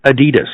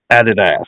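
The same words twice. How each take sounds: First: "Adidas" stressed on the middle syllable, DEE; American pronunciation. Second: "Adidas" with stress on the first syllable and a full final DASS; mock British pronunciation. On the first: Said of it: "I actually pronounce it Adidas". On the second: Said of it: "I'm going to probably call them". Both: Shown as a demonstration.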